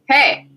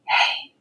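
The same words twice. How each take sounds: First: It is said in a normal voice. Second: It is whispered.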